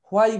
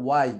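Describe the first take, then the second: First: Why as "hwai", h at the front; mistaken h sound. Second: Why starting on a clean w, "wai"; h dropped. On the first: Teacher demonstrates the common mistake, "hwai" with h. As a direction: lead into why with a clear h. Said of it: "why বলতেছি". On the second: Teacher gives the actual pronunciation, h-less "wai". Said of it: "এইচটা out". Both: Shown as a demonstration.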